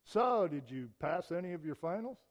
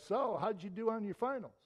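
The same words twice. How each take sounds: First: Louder, skeptical, with a jab of doubt; imply you expect they failed; doubting question. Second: Bright, upbeat, genuinely curious; friendly question. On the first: Friend questioning a student after finals, doubting jab. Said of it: "would you rather hear him say". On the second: Friend greeting a student after finals, friendly curious ask. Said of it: "your friend comes up to you and says". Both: Shown as a demonstration.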